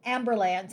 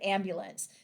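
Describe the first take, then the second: First: The word is said in the meme's slang pronunciation. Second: The word is said in its usual standard pronunciation. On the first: "call an amb- ambulance instead of" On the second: "instead of"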